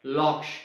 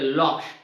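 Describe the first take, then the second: Both takes have the same delivery.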